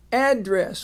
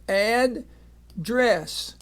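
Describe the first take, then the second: First: Said in the usual way. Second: Teacher sounding out address in two slow parts; slow split syllables. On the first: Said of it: "when you put it together". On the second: Shown as a demonstration. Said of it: "So we have address".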